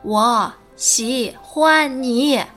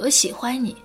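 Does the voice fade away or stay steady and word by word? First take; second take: word by word; fading. First: Each word is said separately and deliberately. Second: The voice gets quieter toward the end.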